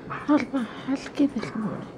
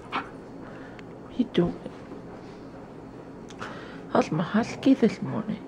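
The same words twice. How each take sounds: First: High, squeaky cooing question; high-pitched doggy voice. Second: High cooing question; high pet voice. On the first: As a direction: push the coo up into a squeak. Repeated higher. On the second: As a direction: coo at the husky, pitched up. Baby talk to dog. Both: Real, not acted.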